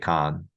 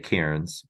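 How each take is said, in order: First: The word is said short, sounding like 'con'. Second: The word is said fully, as it is spelled. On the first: The speaker calls it right. "but you say con" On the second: The speaker calls it wrong. "it's spelled C A I R N S, and you don't say Cairns"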